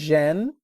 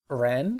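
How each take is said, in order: First: The word begins with a J-like sound. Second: The word begins with an R-like sound. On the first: "she says Jen" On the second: "kind of like an R"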